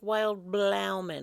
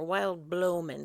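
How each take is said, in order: First: The second word is two syllables with an ow vowel. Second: The second word is two syllables with an oh vowel. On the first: "It looks like it's spelled like"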